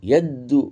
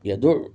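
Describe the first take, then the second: First: The d sound is held and doubled. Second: The d sound is short and single. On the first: The speaker calls it wrong. "দালকে ইয়ার ইয়ার সাথে ঢুকাই দেওয়া, এভাবে পড়া ভুল" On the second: The speaker calls it right. "ইয়া সিম্পল, দালও সিম্পল"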